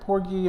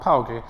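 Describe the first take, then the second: First: The name has a standard pronunciation. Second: The name has a vernacular pronunciation.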